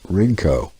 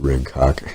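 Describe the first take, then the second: First: The final K sound is left silent. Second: The final K sound is clearly pronounced. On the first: "the second K, might be silent" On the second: "I pronounce it Rincock"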